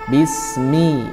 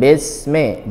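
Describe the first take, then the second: First: The final vowel is a clear 'i' sound. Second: The final vowel is an 'e' sound. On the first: The speaker calls it right. "mi jelas ke bawah ya, karena dia kasrah" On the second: The speaker calls it wrong. "Jangan bisme"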